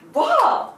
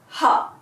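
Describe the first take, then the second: First: The syllable begins with a w sound. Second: The syllable begins with an h sound. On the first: This is the reading used in exceptional cases. "I read this as wa" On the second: This is the character's usual reading. "the pronunciation for this was, was ha"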